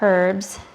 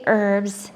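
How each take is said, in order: First: The word starts with a clear h sound. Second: The word starts without an h sound. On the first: This is the Canadian and European way. "The proper way to say these are herbs. ... if we say the H in front" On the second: This is the usual American way. "we say herbs in America"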